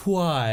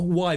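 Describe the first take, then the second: First: "why" with a breath, "hwhy"; mock-posh "why" as "hwhy"; posh pronunciation. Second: Said in the usual way. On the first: Shown as a demonstration. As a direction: exaggerate the h in "why". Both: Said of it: "not why, but why".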